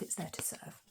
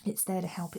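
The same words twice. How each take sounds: First: Breathed softly, no voice; whisper. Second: Said in the usual way. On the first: Real, not acted. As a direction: whisper it like a secret. Whispered echo of previous line.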